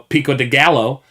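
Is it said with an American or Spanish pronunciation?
American. It is said with an American English pronunciation. "if you want to pronounce it Chipotle"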